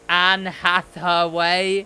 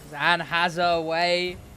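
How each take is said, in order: First: The s in has is lisped as th. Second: The s in has is a clear s.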